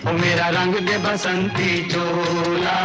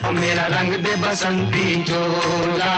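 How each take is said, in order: Both takes have the same delivery.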